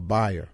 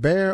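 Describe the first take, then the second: First: The name sounds like the word 'buyer'. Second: The name sounds like the word 'bear'. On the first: The speaker calls it right. "B Y is by" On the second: The speaker calls it wrong. "Is it Bear or Beyer?"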